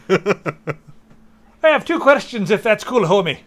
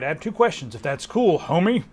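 First: It is said in an attempted Glasgow accent. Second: It is read in the speaker's usual accent.

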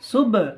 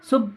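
First: The final b bounces with a slight echo. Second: The final b is flat with no echo. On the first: The speaker calls it right. "বাটা কলকলা হবে।" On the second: The speaker calls it wrong. "সুব সুব বলবেন না"

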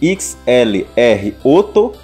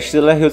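First: It is said with an Italian pronunciation. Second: It is said with an English pronunciation.

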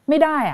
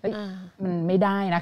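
First: It is said in a curt, harsh tone. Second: It is said in a soft, gentle tone. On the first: A blunt refusal. The speaker calls it wrong. "แทนที่เราจะแบบว่าไม่ได้" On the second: A kind, softened refusal. The speaker calls it right. "มันสามารถเปลี่ยนน้ำเสียงได้นะ ... ความละมุน"

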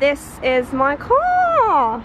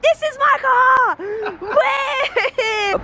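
First: It is said in a flat, unexcited way. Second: It is said in a lively, excited way. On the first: The speaker calls it wrong. "I should sound more excited" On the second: The speaker calls it right. "I should sound more excited"

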